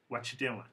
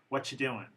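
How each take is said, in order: The two takes are said the same way.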